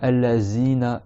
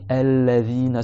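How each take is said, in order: First: The consonant is a buzzing 'z' sound. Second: The consonant is a soft 'th' sound. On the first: The speaker calls it wrong. "za, za, en serrant les dents. Ça, c'est faux" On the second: The speaker calls it right. "Il faut que le bout de la langue, il sorte sous les dents du haut"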